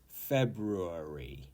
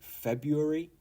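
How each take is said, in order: First: It uses the traditional, fuller pronunciation of the word. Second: It uses the everyday pronunciation many people use. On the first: "the traditional pronunciation is February" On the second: "some British people do say February"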